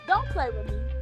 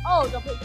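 First: It sounds stern and threatening, deadly serious. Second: It sounds light and casual, not serious.

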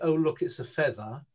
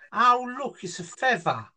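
First: It is said in a standard English accent. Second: It is said in a London-fringe accent. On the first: "like a normal English person might say" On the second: "I heard them say, ... like that"

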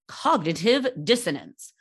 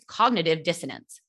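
First: It is said in an unusual voice. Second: It is said in a normal voice.

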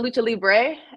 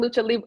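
First: The last word ends with a 'bray' sound. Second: The last word ends like the word 'Libra'. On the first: This is the usual way to say it. The speaker calls it right. "instead of Lucha Libre" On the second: This is how the commentators said it. The speaker calls it wrong. "They kept saying Lucha Libre"

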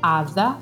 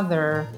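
First: The final R is silent. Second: The final R is strongly pronounced. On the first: "in British English hanno la R completamente invisibile" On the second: "in americano hanno sempre la R fortissima"

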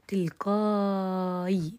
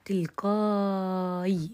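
First: The long vowel is held for six counts. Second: The long vowel is held for six counts.

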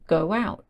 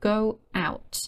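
First: An extra w sound links the words. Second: No extra sound links the two words.

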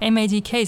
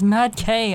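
First: The name is said as separate spelled letters. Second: The name is said as a word plus K. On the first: The speaker calls it wrong. "I used to say MADK, so I've been pronouncing it wrong" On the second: The speaker calls it right. "it's pronounced Mad K"

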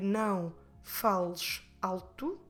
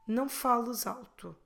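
First: The words are said separately, with a break. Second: The S runs into alto as a Z sound. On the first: The speaker calls it wrong. "I could split the words and say não fales alto" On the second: The speaker calls it right. "it flows much better if you put them together"

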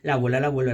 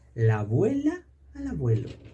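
First: The phrase is spoken very fast. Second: The phrase is spoken slowly. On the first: "Y más rápido todavía" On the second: "Vamos a hacerla primero despacito"

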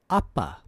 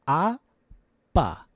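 First: It is said fast. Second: It is said slowly.

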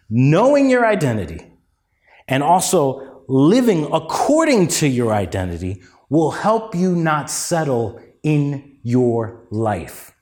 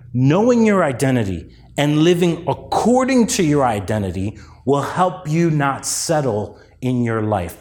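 First: It is said at a slow pace. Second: It is said at a quick pace.

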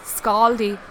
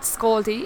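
First: The vowels are said wide and open. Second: The vowels are said narrow and tight. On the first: The speaker calls it right. "it's scaldy. Yeah, widen your vowels" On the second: The speaker calls it wrong. "I say it wrong though. It's not scaldy"

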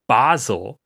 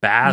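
First: The first vowel is a long open 'ah'. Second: The first vowel is a short 'a'. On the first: Nobody actually says it this way. The speaker calls it wrong. "I don't think anyone's saying Basel" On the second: Most British speakers say it this way. The speaker calls it right. "Most people are saying Basel"

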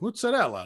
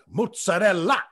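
First: It has a mild, toned-down Italian pronunciation. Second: It has a strong, heavy Italian pronunciation.

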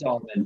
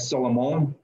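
First: The name is said with an English pronunciation. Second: The name is said with a French pronunciation. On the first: "It's Solomon for sure" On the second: "If we were in France, it might be like Solomon"

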